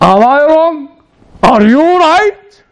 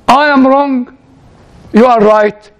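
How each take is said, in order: First: It is said as rising, incredulous questions. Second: It is said as plain falling statements.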